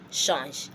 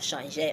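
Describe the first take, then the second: First: The word ends without a final vowel sound. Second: The word ends with an added final vowel sound. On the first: The speaker calls it right. "I'll let my E rest. I'll just say what change" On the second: The speaker calls it wrong. "I won't say changer"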